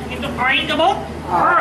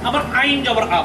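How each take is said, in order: First: The vowel is squeezed from the middle of the throat. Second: The vowel sounds plain, like an open mouth vowel. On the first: The speaker calls it right. "কণ্ঠের মাঝখান থেকে... কণ্ঠটাকে একটু চিপা ধরতে হবে" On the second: The speaker calls it wrong. "যা কোনো ক্রমে সমর্থনযোগ্য নয় এবং সুস্পষ্ট ভুল"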